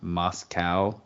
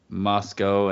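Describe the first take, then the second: First: The name is said the Russian city way. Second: The name is said the local Idaho way. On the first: It names the city in Russia. "not Moscow, like in Russia" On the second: It names the town in Idaho. "they pronounce it Moscow"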